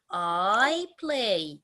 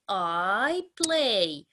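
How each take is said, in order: Both takes have the same delivery.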